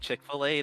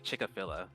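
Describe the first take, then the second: First: The name is pronounced in its usual way. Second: The name is pronounced in a playfully altered way. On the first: "Instead of saying Chick-fil-A" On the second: "they'll say Chick-fil-A"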